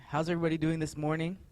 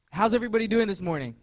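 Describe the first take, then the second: First: Said in the usual way. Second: Higher, louder and fast; louder hype greeting. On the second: Real, not acted. Pastor re-asks the congregation, louder to get them going. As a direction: pump the crowd up on the second try. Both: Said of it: "Everyone's doing good?".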